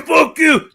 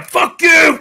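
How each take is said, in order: First: Loud high mock shout again; retold shout. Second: Mock yelling at the critic; retold shout. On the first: To the harsh critic, a high mock shout. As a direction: yell it back, a bit less. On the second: To the harsh critic, a high loud shout.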